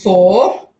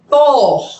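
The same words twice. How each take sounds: First: It is said plainly without strong emphasis. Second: It is strongly stressed with a big pitch drop. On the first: The number is given as new information. "in the first time it's four" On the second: The number is contrasted as the corrected one. "the second time it's four, ... With a huge low drop"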